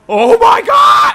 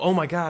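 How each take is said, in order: First: It is said loudly, like a scream. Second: It is said softly, like a gasp. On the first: An overreaction to something trivial. The speaker calls it wrong. "when you are screaming like that at everything" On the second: A normal reaction to a scary moment. The speaker calls it right. "You might gasp every once in a while. You go"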